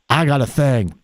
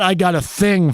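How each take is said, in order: First: The phrase is pronounced in a relaxed, cool way. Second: The phrase is pronounced in a stiff, dorky way. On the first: The speaker calls it right. "It's I got a thing" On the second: The speaker calls it wrong. "That would be the dorky pronunciation"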